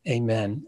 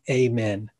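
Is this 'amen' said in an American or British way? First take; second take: American; American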